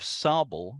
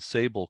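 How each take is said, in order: First: It is said in a French-like way. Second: It is said in a plain English way. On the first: "comes from French. It's uh, kind of an approximation of the French" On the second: "rather than"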